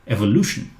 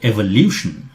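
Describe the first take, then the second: First: The middle syllable is said as 'loo'. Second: The middle syllable is said as 'lyoo'. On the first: The speaker calls it right. "it's Lu" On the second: The speaker calls it wrong. "that is not correct. It's not Liu"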